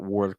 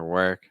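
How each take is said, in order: First: The vowel is said with rounded lips. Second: The vowel is said with straight, open lips. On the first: The speaker calls it wrong. "Might be rounding too much, so it's not work" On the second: The speaker calls it right. "straighten your lips ... it's more work"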